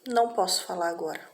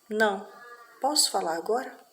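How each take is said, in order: First: It is said as one phrase without a pause. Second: There is a pause after "não", rising question.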